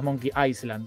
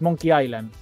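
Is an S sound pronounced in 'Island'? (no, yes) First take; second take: yes; no. First: Island is said with an S sound. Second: Island is said without an S sound. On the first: The speaker calls it wrong. "no es Monkey Island" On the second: The speaker calls it right. "Se dice sin ese, es Monkey Island"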